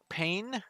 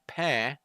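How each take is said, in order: First: It is pronounced the English way, rhyming with rain. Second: It is pronounced the French way, with a nasal vowel. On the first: "the word pain" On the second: "if you pronounce it in French"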